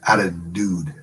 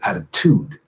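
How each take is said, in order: First: The second T is flapped. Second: The second T is a hard T. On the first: The speaker calls it wrong. "it would be flapped" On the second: The speaker calls it right. "You say attitude. So that hard T"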